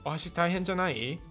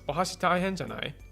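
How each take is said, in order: First: The pitch rises at the end. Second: The pitch falls at the end. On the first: It asks whether using chopsticks is too hard. "That's an upward, kind of like actually questioning" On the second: It assumes using chopsticks must be hard. "oh, chopsticks must be difficult for you"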